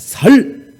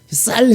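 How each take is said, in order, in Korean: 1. 평음, 부드러운 s 소리로 시작해요. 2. 경음, 거센 s 소리로 시작해요. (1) "쌀이 안 돼갖고 살살 그러는 거예요" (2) "쌀 해보라고"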